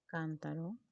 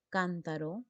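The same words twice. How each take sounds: First: "cántaro" softer, stress on CÁN; teacher murmuring the word while writing it; soft stressed repeat. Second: Said in the usual way. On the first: Shown as a demonstration. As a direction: say it quietly, leaning on the first syllable.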